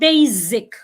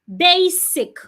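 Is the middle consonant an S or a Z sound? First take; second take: Z; S. First: The middle consonant is a buzzing Z sound. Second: The middle consonant is a hissing S sound. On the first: The speaker calls it wrong. "Do not sound it as a Z" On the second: The speaker calls it right. "The S remains a S"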